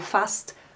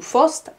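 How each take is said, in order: First: The vowel is an open 'a' sound. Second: The vowel is an 'o' sound. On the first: "also fast zu Fost, a zu o" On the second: "also fast zu Fost, a zu o"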